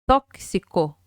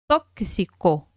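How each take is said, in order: The two takes are said the same way.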